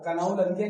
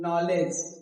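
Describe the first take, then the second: First: The word starts with a K sound. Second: The word starts with an N sound. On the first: The speaker calls it wrong. "इसे क्या कनाऊ लगे नहीं बोलना है" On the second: The speaker calls it right. "क्या बोलना है?"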